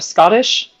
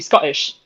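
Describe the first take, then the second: First: The middle t sounds are clearly pronounced. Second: The middle t is replaced by a glottal break. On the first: "There's the two T's in Scottish" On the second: "if you were to say it with the Cockney accent"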